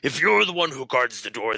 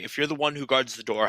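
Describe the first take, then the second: First: It is said in a put-on character voice. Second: It is said in the speaker's normal voice.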